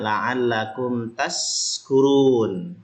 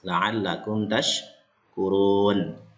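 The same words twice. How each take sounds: First: The consonant is a hissing 's' sound. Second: The consonant is a hushing 'sh' sound. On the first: The speaker calls it wrong. "dibacanya pakai sin biasa" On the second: The speaker calls it right. "Cara mengeluarkannya huruf shin ya kan?"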